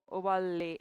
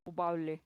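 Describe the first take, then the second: First: उबाले drawn out slowly, the ल held long; stretched with doubled l. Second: Slow and easy. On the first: Teacher trying उबाले slowly with a long ल. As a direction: say उबाले slow, leaning on a long ल. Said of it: "ऐसे बोलूं?". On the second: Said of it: "या थोड़ा आराम आराम से बोलूं". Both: Shown as a demonstration.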